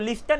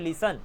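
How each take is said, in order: First: A t sound is pronounced in the middle. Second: No t sound is heard in the middle. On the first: The speaker calls it wrong. "लिस्टन नहीं बोलते" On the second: The speaker calls it right. "आप बोलते हो लिसन"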